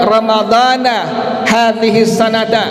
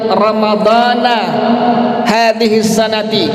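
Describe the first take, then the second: First: Ramadhan ends in 'a', sanat ends in 'a'. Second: Ramadhan ends in 'a', sanat ends in 'i'. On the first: "tidak dibaca dengan kalimat ramadhana hadhihi sanata" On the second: "tidak dibaca dengan kalimat ramadhana hadhihi sanati"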